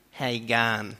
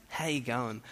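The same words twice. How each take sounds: First: Broader western-suburbs drawl on "gun"; western-suburbs Aussie accent. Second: Said in the usual way. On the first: Shown as a demonstration. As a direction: say "gun" as a flat "gahn", western Aussie style. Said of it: "if you live a bit more west than here". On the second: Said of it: "Or if you live a bit more west".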